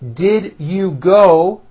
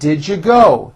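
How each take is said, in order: First: Each word is said separately and fully. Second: The words are squeezed together and reduced.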